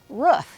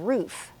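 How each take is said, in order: First: The word is said with a Midwestern pronunciation. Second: The word is said with a non-Midwestern pronunciation. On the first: "people in the Midwest, a lot of them say it that way. Um, just like they say uh, roof" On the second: "instead of roof"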